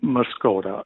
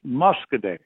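First: The name ends with a 'ta' sound. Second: The name ends with a 'day' sound. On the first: This may be the original native pronunciation. "the Native Indians, pronounced it Muskota" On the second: This is how locals pronounce it now. "that's pronounced Muskoday"

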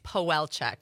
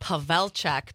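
First: The surname is said with American pronunciation. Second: The surname is said with Polish pronunciation. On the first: This is the form most people use. "Most people know me as Pawelczyk" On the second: This is the original form of the name. "the Polish version would be"

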